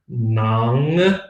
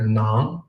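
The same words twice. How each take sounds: First: The final ng sound is pronounced clearly. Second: The final ng sound is swallowed, barely pronounced. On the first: "nang with a clear G" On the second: "you'll hear nang or nong"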